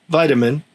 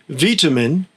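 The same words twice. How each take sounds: First: It is said with an Australian pronunciation. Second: It is said with a British pronunciation. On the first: "nearly the same in Australia" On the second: "it's vitamin in the U K"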